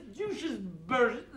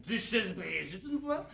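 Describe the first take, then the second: First: Burgess said slowly as English "BEUR-jess"; English pronunciation. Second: Brigitte in French with a Belgian "une fois" tacked on, softer; without English accent. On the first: Explaining her title with the English accent that Belgians drop. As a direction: stretch Burgess with a mock-English vowel. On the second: Explaining how Belgium says her title, without English accent. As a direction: say Brigitte with a clear French "Bri", lightly mock-Belgian. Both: Acted. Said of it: "mais sans l'accent".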